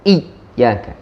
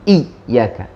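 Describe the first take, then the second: First: The y sound is pressed to a full stop. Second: The same.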